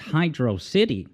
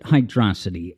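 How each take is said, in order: First: It sounds like the two words hydro city. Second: It sounds like one word rhyming with ferocity. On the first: "if you pronounce the second level of Sonic three as Hydro City" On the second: "some people pronounce it hydrosity"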